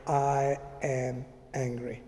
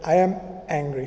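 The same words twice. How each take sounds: First: Softer, lower and slow; quietly owning up to anger alone in a room; quiet admission. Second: Said in the usual way. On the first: Retold or imitated. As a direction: say it calmly under your breath. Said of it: "I just shut the door very quietly and I said". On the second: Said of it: "I just said".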